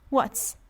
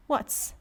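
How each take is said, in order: Both takes have the same delivery.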